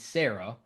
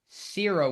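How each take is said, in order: First: The first syllable sounds like 'sair'. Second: The first syllable sounds like 'sear'. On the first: "Sarah Strong is Sarah" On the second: "like for sear as you're searing a steak"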